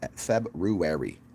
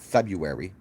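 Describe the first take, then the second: First: The r after the b is clearly sounded. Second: The r after the b is left out. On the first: The speaker calls it right. "No, there's an R there" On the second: The speaker calls it wrong. "It's not February"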